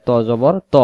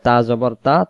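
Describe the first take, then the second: First: ত জবর ত with a thick rounded "o"; heavy To. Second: তা জবর তা with thin "t" and open "a"; light Ta. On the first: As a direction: say ত full and heavy. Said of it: "তয়ের বেলায়". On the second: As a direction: say তা unrounded. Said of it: "তায়ের বেলায়". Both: Shown as a demonstration.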